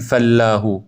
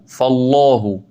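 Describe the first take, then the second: First: فالله with a light, fronted "læ"; wrong thin ل. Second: فالله with a dark, full "llaa"; thick, back aa in فالله; correct heavy ل. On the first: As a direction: say فالله as "fallæhu". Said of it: "پس نخونید فالله". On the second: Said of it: "با درشتی تلفظ بکنید". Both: Shown as a demonstration.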